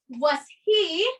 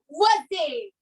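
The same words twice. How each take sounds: First: Each word is said separately and clearly. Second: The words run together as one reduced word. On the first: The speaker calls it wrong. "you don't say" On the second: The speaker calls it right. "You say"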